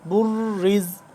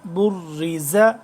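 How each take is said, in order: First: The word ends on a consonant, vowel dropped. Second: The word ends with a final vowel. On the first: The reader stops on the word. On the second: The reading continues past the word.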